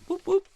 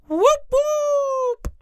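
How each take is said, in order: First: It is said calmly, with less energy. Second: It is said excitedly, with more energy.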